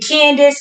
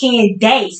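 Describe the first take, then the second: First: The last syllable does not sound like 'ace'. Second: The last syllable sounds like 'ace'. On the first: The speaker calls it wrong. "a lot of people were saying Candace" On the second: The speaker calls it right. "no, it's Candace"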